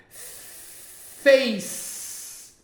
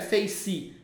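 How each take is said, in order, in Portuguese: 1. Termina na consoante, sem vogal. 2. Uma vogal extra soa depois da consoante final. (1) "Face, não é face" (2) "não é face"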